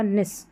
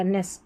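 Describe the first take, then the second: First: निस with a short "i" vowel; "nis" pronunciation. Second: नेस with an "e" vowel, dropped low and soft; "nes" pronunciation. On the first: Teacher modelling the other spelling, निस with an "i" sound. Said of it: "उच्चारण निस करके होगा". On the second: Teacher modelling the suffix, नेस with an "e" sound. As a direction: say नेस as "ness", lower and softer. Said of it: "उच्चारण नेस करके होगा". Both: Shown as a demonstration.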